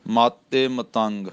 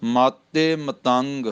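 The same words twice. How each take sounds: First: ਮਾਤੇ said with a tight, doubled t; tense pronunciation. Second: ਮਾਤੇ said with a tight, doubled t, slowly; tense pronunciation. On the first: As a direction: press the t of ਮਾਤੇ tight before ਮਤੰਗ. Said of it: "ਮਾਤੇ ਕੱਸ ਕੇ ਬੋਲਣਾ।". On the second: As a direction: hold the t of ਮਾਤੇ firmly, like matte. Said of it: "ਇਸ ਦਾ ਉਚਾਰਨ ਮਾਤੇ ਕੱਸ ਕੇ ਕਰਨਾ". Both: Shown as a demonstration.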